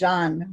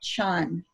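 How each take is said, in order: First: The word begins with a z-like sound. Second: The word begins with a ch sound. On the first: "more like a Z" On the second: "C H A N. I may not be pronouncing it right"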